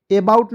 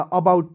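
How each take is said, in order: First: अबाउट said as the mistaken reading, stressed and louder; wrong pronunciation. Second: अबाउट said as uh-BOUT, the correct reading; correct pronunciation. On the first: Teacher shows students the reading to avoid, louder. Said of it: "अबाउट नहीं पढ़िएगा". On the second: Teacher gives students the right reading. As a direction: give अबाउट the proper uh-BOUT form. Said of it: "अबाउट पढ़ा जाएगा". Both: Shown as a demonstration.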